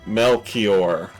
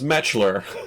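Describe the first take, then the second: First: The name is said as Mel-kee-or. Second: The name is said as Metch-ler. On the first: "his name is Melchior" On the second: "that says Metchler"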